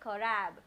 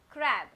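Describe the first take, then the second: First: The c and r sounds are pulled apart. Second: The c and r sounds blend together quickly. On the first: The speaker calls it wrong. "I don't say crab" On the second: The speaker calls it right. "I can hear both the sound k and r, but quickly"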